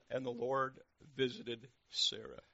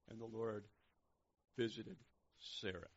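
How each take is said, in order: First: Slow, weighty, projected verse; emphatic scripture reading. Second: Gently. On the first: Real, not acted. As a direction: proclaim it slowly. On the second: Acted. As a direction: let each piece fall gently. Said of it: "gently says".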